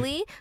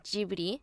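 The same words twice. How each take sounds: First: It is said with English-speaker pronunciation. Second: It is said with Japanese pronunciation. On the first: This is how English speakers say it. "English speaking people saying Ghibli" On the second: This is how people in Japan say it. "in Japan, we say Ghibli"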